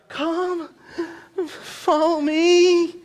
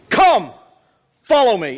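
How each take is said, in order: First: It is said softly, as a pleading request. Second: It is said firmly, as an order. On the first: The speaker is asking, leaving the choice open. The speaker calls it wrong. "It's not" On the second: The speaker is giving an order, not asking. The speaker calls it right. "It is a command"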